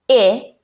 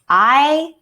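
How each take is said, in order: First: A short vowel, as in 'it'. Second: A long vowel, as in 'eye'. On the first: "letter I can make the short I sound" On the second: "and the long I sound"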